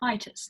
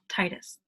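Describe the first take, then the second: First: The first vowel is drawn out and stretched. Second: The first vowel is short and plain. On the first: The speaker calls it right. "Sounds like Titus" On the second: The speaker calls it wrong. "not Titus"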